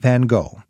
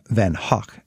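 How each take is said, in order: First: The name is said the English way, ending 'go'. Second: The name is said the Dutch way, like 'hock'.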